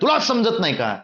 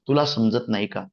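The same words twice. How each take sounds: First: It is said at a raised, higher pitch. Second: It is said at an ordinary middle pitch. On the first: People think the speaker is angry. "ते जर पट्टी वाढवली" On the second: It sounds normal and fine. "दैनंदिन पट्टीमध्ये म्हटलं तर तो चांगलं वाटतं"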